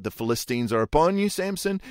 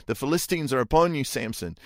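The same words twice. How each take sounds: First: Raised call, the name jumping high; mock alarm, rising on Samson; crying out. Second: Urgent raised warning call, rushed; mock alarm call to wake him; crying out. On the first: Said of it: "She cries out". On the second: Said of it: "she cries out".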